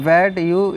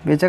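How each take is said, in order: First: The two words are said separately and fully. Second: The two words are run together into one.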